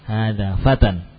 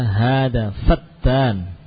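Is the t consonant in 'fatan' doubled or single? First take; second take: single; doubled. First: The t consonant is single and short. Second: The t consonant is doubled and held. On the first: It means a young man. The speaker calls it right. "Hada fatan ini adalah seorang pemuda" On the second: It means a slanderer. The speaker calls it wrong. "jangan ditasydid. Jangan dibaca hada fatan"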